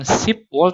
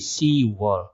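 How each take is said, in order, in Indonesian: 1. Ada bunyi p sebelum 'wol'. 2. Tidak ada bunyi p sebelum 'wol'. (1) "Bukan sipwol" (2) "tapi siwol"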